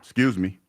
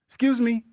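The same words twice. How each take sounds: First: It is said at a much deeper pitch. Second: It is said at a normal, higher pitch. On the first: The speaker is done being polite. "So then I had to drop the octave" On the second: The speaker is trying to be nice. "the first way I did it, because I'm trying to be nice"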